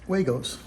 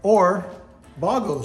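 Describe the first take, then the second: First: The word is said with an English pronunciation. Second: The word is said with a German pronunciation. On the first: The speaker calls it wrong. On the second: The speaker calls it right.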